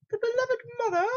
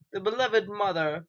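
First: Very high falsetto mother; put-on mother voice. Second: Said in the usual way. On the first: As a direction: squeak it out as a mock mum. Voices the mother being named.

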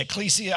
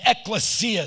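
First: ECCLESIA as ek-KLEE-see-uh; ecclesia, stressed KLEE; alternative pronunciation. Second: ECCLESIA as ek-luh-SEE-uh; ecclesia, short middle vowel, stressed SEE; pronunciation ek-luh-SEE-uh. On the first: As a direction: say ecclesia with a long "klee" in the middle. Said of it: "Some people say ecclesia". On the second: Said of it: "Some people say ecclesia. I've said it both ways". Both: Shown as a demonstration.

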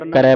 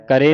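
First: ਕਰੈ ending in open "rai"; correct vowel. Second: ਕਰੇ ending in closed "re"; wrong vowel. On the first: Teacher shows the class how to read it, correct vowel. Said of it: "ਪੜ੍ਹਨਾ". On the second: Teacher shows what not to read, wrong vowel. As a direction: say ਕਰੇ with a plain "e" at the end. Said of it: "ਨਹੀਂ ਪੜ੍ਹਨਾ". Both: Shown as a demonstration.

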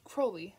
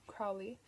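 First: "Crowley" said KROH-lee, rhyming with "slowly"; corrected pronunciation. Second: "Crowley" said KROW-lee, rhyming with "cow"; wrong pronunciation. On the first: Reader corrects the demon's name, careful KROH-lee. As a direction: fix "Crowley" to the long "oh" sound. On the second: Reader stumbles on the demon's name, mispronounced. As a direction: misread "Crowley" with the "ow" of "how". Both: Real, not acted.

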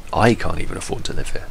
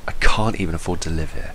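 First: "I" leaned on at the start; line read with weight on "I"; stress on I. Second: "can't" stressed, falling tune to the end; weary read, weight on "can't". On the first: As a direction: hit the word I, rest level. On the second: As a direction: hit "can't" and let the line fall. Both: Shown as a demonstration. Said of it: "any of those except the one she picked".

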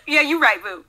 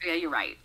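First: High, loud, laughing concession; laughing agreement. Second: Said in the usual way. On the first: Real, not acted. Conceding the pumpkin spice point to co-host, loud laughing agreement. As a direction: give in through a big laugh.

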